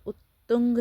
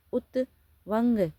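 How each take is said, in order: First: उत्तुंग said with a doubled t and a nasal ng before the g; correct pronunciation. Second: उत्तवंग read slowly and syllable by syllable, loud and higher, as the wrong form; misspelled option read out. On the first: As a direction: give the right form उत्तुंग plainly to the class. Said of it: "उत्तुंग सही है". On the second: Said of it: "तो उत्तुंग सही है". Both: Shown as a demonstration.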